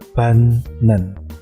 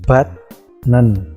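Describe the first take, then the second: First: The first syllable ends with an n sound. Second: The first syllable ends with a t sound. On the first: The speaker calls it right. "Jadi bacanya banen" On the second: The speaker calls it wrong. "Contohnya di situ ada bat nen"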